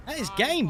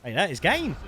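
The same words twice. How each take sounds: First: "That is game." said much higher, with "game" falling in triumph; excited repeat. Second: Said in the usual way. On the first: Real, not acted. Streamer repeating his win call, in a high triumphant voice. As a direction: push the repeat up high in victory. Calls the game over twice.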